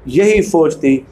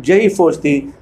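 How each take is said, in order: Both takes have the same delivery.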